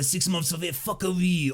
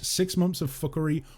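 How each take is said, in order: First: It is said in a put-on French accent. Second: It is said in his normal accent.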